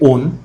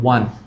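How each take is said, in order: First: It is said like 'own', without a w sound. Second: It is said like 'one', with a w sound. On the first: The speaker calls it wrong. "W O N শব্দটাকে অনেকে ওন বলে, আমিও বলেছি" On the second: The speaker calls it right. "হবে ওয়ান, ওয়ান এক"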